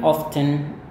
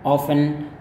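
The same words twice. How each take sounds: First: Often said as /oftən/ with the t sounded. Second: Often said as /ofən/ with no t; often, silent t. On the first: Teacher shows the variant that sounds the t in often. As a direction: model often with a clear t. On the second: Teacher contrasts two ways of saying often. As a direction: model often without the t. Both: Shown as a demonstration. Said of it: "ada yang bilang often".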